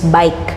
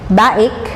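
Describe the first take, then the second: First: It is said as one syllable, like bike. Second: It is said as two syllables, ba-ik. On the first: The speaker calls it right. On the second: The speaker calls it wrong.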